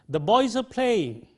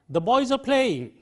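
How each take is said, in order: No difference in how they are said.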